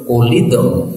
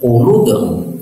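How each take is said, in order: First: An i vowel follows the l sound. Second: A u vowel follows the l sound.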